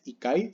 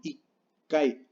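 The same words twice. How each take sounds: First: Said in the usual way. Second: Ikai with a held stop before "kai"; slow ikai, doubled K as a gap; pause in ikai. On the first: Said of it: "no es ikai". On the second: Shown as a demonstration. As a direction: break ikai into "ik", silence, "kai". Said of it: "Tiene una pausa porque es doble K".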